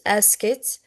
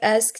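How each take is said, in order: First: The ending adds an extra syllable. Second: The ending adds no extra syllable. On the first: The speaker calls it wrong. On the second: The speaker calls it right. "we pronounce it like"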